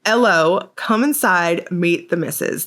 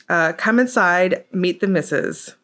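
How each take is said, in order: First: Put-on UK accent. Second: First try at a mock British accent, slowed; tentative British Cockney-style greeting. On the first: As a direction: redo the British greeting with a lifted start. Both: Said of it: "Did I do my U K accent right?".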